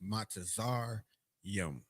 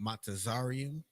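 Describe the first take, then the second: First: The ending is a single syllable, 'yum'. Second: The ending has an extra syllable, 'ree-um'. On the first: The speaker calls it right. "But it's Matazar Yum" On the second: The speaker calls it wrong. "I kind of pronounced it wrong that first time"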